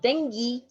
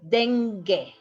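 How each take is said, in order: First: The middle consonant sounds like a breathy h. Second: The middle consonant is a hard g sound. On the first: The speaker calls it wrong. "is not dengue" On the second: The speaker calls it right. "is dengue"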